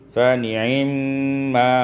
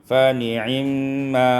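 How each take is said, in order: The two takes are said the same way.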